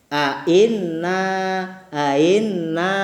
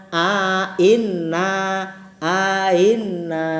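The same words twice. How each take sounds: The two takes are said the same way.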